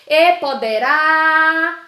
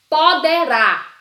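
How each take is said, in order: First: High, loud call with a long final "rá" in "poderá"; drawn-out stressed syllable. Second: Loud, slow "poderá" in three even beats; syllable by syllable. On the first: Teacher revealing the tonic syllable, "rá" in "poderá" stretched long. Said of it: "a sílaba tônica é o rá". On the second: Teacher presenting an example, "poderá" in separate loud syllables. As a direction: sound out "poderá" one syllable at a time, loudly. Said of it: "Qual a sílaba tônica de poderá?". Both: Shown as a demonstration.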